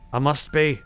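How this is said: It is said in an exaggerated Australian accent. The speaker calls it right. "I gave him like an exaggerated bad Australian accent"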